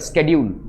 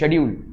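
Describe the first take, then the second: First: The word begins with an 'sk' sound. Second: The word begins with an 'sh' sound. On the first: This is how American English speakers say it. "एक American क्या बोलेगा स्केड्यूल" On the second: This is how Indian English speakers say it. "जैसे आप क्या बोलते हो शेड्यूल"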